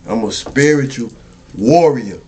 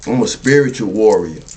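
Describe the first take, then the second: First: Proud, hammered warrior at the end; stress on warrior. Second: Said in the usual way. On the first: Shown as a demonstration. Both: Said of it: "I emphasize the warrior".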